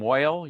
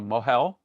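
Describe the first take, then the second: First: The word is said in Yiddish pronunciation. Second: The word is said in standard pronunciation.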